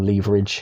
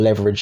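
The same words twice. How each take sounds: First: The word is said with a non-American pronunciation. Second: The word is said with an American pronunciation. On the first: The speaker calls it right. "Or leverage" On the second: The speaker calls it wrong. "That's a very American way of saying leverage"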